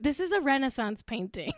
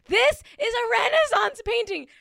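First: Said in the usual way. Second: High, insistent gushing; emphatic raving. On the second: Real, not acted. Fan raving over a movie still, emphatic and high. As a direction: proclaim it in a high, awestruck voice. Repeats her rave, far higher.

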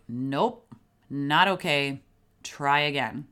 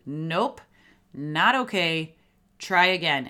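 First: Said in the usual way. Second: Absolute firm parental refusal, louder by "Try again"; really firm. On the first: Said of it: "You can say". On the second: Shown as a demonstration. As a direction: lay down the law with separate, emphatic phrases. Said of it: "that phrase needs to be really firm".

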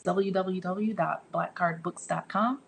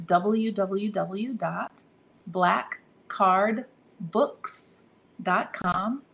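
First: Said in the usual way. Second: Very slow, word by word; spaced out with pauses between the words; slow spelling-out. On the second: Real, not acted. Giving the website address to listeners, slow and deliberate. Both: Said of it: "I have to say it slow".

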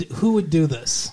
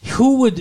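First: Said in the usual way. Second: Higher, louder hit on the opening words; lightly hammed-up sitcom incredulity; mock actress delivery. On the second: Resuming co-host's question, a higher and louder mock delivery.

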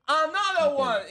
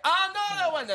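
First: Slow, higher, louder mock announcer call; drawn-out announcer call, in English; imitating announcer. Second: Much higher, louder mock announcer call; imitating announcer. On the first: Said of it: "Y dice". (imitando al locutor, lento y más agudo) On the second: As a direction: repeat the call, pitched way up. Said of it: "y dice". (imitando al locutor, mucho más agudo)

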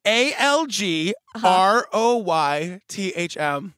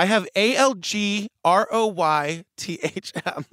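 First: "A L G R O Y T H M" spelled slowly with pauses; spelling it out slowly. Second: "A L G R O Y T H M" read letter by letter; spelling it out. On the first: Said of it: "Say that again". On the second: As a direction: spell out "A L G R O Y T H M" one letter at a time. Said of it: "Can you spell that word for me?". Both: Shown as a demonstration.

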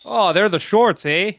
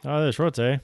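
First: Hammed-up Canadian accent, higher and louder; mock Canadian accent. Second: Mock Canadian accent. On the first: Teasing Canada about the shorts joke in a mock Canadian accent. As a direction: play a jokey Canadian with the eh. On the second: Echoing the shorts joke in a light Canadian accent. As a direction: toss off a jokey Canadian eh. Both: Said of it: "with that accent".

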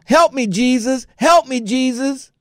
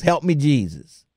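First: High, pleading mock holler. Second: Said in the usual way. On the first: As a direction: imitate her crying out for help, pitched up. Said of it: "she was hollering". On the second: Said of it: "That's all she was hollering was".

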